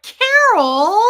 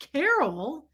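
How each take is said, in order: First: Very loud, high CAROL; imitated husband's yell. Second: Higher, questioning CAROL at normal volume; incredulous echo. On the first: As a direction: bellow accusingly at your wife. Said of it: "he yelled at her for it". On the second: Retold or imitated. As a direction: repeat the name in mock disbelief. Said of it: "I was like".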